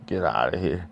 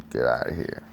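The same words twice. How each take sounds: First: Breathy whisper; whispered threat. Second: Low, much softer growl; low menacing line. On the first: Same line read again, whispered. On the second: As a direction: say it low and quiet like a threat. Reading comic dialogue aloud. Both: Acted.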